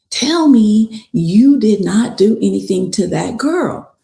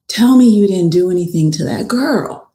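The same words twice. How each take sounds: First: "Tell me you did not" spelled out word by word, higher; emphatic retold demand. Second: Retold confrontation. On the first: Keontae confronting Blaze on the phone, retold as emphatic demand. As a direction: press hard on "did not", demanding an answer. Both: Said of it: "he's just so real. He's like".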